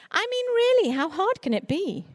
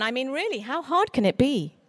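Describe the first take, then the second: First: Much higher, sing-song scornful echo; mock the careless boast with a pitch leap. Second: Lightly voiced casual boast; tossing it off as if it's nothing; breezy confidence. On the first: Speaker mocking those who belittle children's books, in a high sneer. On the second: Stranger at a book event, in a breezy boast. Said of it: "cheerfully announcing".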